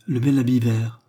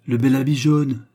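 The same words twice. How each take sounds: First: Said in the usual way. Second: Lightly exclaimed, a touch of delight; mild exclamation. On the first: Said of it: "dit la perruche". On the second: A narrator's reading. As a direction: exclaim it with restraint. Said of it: "s'écria le serin". (légère exclamation)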